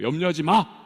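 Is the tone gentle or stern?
stern. It is said firmly as a command. It is a strong prohibition to stop now. The speaker calls it right. "강력한 금지를 명하고 계시는 거예요"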